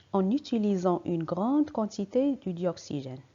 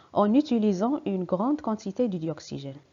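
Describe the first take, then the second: No difference in how they are said.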